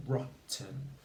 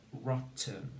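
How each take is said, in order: Both takes have the same delivery.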